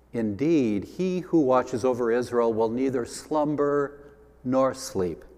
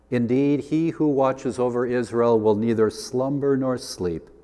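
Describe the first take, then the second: No difference in how they are said.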